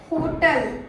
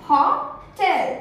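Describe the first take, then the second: First: "होटल" stressed first, weak "tul" ending; common mispronunciation. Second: "होटल" slowly split, haw, TEL; correct pronunciation. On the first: Trainer showing learners' habit, mispronunciation. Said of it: "होटल नहीं". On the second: Teacher answering her own question, correct pronunciation. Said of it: "क्या बोलते हैं". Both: Shown as a demonstration.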